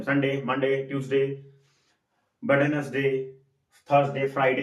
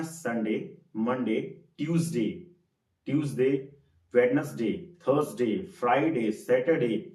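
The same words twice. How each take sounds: First: संडे, मंडे said the careless Hindi way, fast and flat; wrong pronunciation. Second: संडे, ट्यूसडे carefully sounded, each day drawn out; real pronunciation. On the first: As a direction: show the common mistaken way of saying संडे. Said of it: "कई लोग गलत करते हैं". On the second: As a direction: model the proper English way of saying ट्यूसडे. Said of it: "इसका real pronunciation होता है". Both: Shown as a demonstration.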